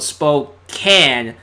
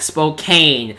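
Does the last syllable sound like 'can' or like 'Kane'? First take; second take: can; Kane. First: The last syllable sounds like 'can'. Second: The last syllable sounds like 'Kane'. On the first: The speaker calls it right. "he actually wrote Spokane" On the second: The speaker calls it wrong. "not Spokane. That's gotta be Kane!"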